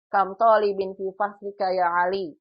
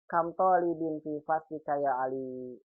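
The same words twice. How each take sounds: First: The word after kam ends in -in. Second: The word after kam ends in -an. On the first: It exclaims that there are very many students. "Cuma beda kasro, beda arti" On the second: It asks how many students there are. "cuma beda harokat, artinya beda jauh sekali"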